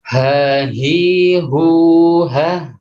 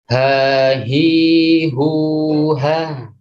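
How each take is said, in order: First: The vowels are short. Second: The vowels are drawn out long. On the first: "Saya praktekkan di yang pertama"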